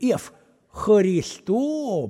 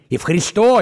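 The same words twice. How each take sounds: First: The stress is on the first syllable. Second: The stress is on the last syllable. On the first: The speaker calls it wrong. "хуй ты не Ев" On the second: The speaker calls it right. "именно ударение на О"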